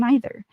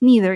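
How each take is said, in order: First: The word is said with a British pronunciation. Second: The word is said with an American pronunciation. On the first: "kung British, ... you use either, neither" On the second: "American pronunciation, you use neither"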